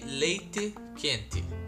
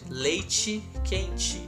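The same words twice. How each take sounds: First: It is said in a traditional Curitiba accent. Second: It is said in a general Brazilian accent. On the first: The speaker is clearly from Curitiba. "I have like a really traditional accent from Curitiba. I say leite quente" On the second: The speaker could be from anywhere else in Brazil. "And around Brazil, you won't find that. You will find leite quente"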